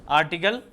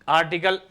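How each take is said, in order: No difference in how they are said.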